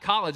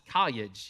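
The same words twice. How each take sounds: First: The word begins with a K sound. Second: The L in the word becomes a Y sound. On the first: "it's not college" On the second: "everything is just it's a yeah sound"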